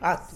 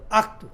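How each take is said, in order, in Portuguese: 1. Não há som de k antes do t. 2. Há um som de k antes do t.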